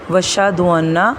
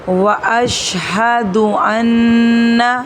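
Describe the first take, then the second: First: The vowel after 'wa' is dropped. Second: The vowel after 'wa' is clearly kept. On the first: The speaker calls it wrong. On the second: The speaker calls it right.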